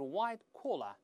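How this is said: Collar is said with a British accent. "英国人都是white collar"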